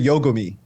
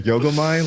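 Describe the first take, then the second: First: The name ends with an 'ee' sound. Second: The name ends with an 'eye' sound. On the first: The speaker calls it right. "it's always the E sound" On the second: The speaker calls it wrong. "What is ends with an I?"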